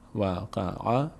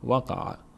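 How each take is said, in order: First: Each syllable is said separately with pauses. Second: The syllables are said smoothly as one word.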